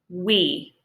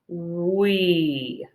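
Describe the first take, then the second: First: The word is said at normal speed. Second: The word is said very slowly and drawn out. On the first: "Say we" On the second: "Say it really slowly"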